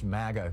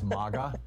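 First: The first vowel sounds like in 'maggot'. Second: The first vowel sounds like in 'mama'. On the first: The speaker calls it wrong. "sounds too much like maggot" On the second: The speaker calls it right. "which sounds kind of like mama or something"

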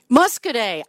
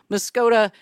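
First: The name ends with an 'ay' sound. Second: The name ends with an 'ah' sound. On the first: The speaker calls it right. "that's pronounced Muscoday" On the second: The speaker calls it wrong. "that's pronounced Muscoday"

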